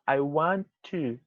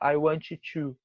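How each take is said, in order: First: The T sound is pronounced only once. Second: The T sound is pronounced twice, separately. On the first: The speaker calls it right. "A gente vai falar I want to. Faz um T só nessas palavras" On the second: The speaker calls it wrong. "A gente não vai falar I want to"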